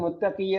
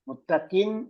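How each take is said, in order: First: The word ends in a long drawn-out vowel. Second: The word ends in a short vowel plus n. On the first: The speaker calls it wrong. "മുത്തഖി എന്ന് നീട്ടി പറഞ്ഞത്" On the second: The speaker calls it right. "മുത്തഖിൻ എന്നാണ് ഉള്ളത്"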